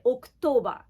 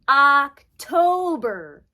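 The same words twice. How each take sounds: First: The first vowel is a Japanese-style O sound. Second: The first vowel is an English-style O sound. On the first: The speaker calls it wrong. "It's an O, but the English O is not the same as the Romaji O. So we don't say October" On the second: The speaker calls it right. "We say October"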